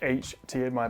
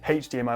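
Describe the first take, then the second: First: The letter H begins without an h sound. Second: The letter H begins with an h sound. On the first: The speaker calls it right. "technically you're not supposed to say the huh bit" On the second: The speaker calls it wrong. "I say her. I say H D M I"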